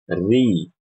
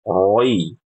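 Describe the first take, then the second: First: The syllable sounds thin and light, like ri. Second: The syllable sounds thick and rounded, like roi. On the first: The speaker calls it right. "Yang benar, ... Dibaca dengan ti, tipis" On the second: The speaker calls it wrong. "kesalahan kalau baca huruf ro yang kasroh bacanya kayak gini"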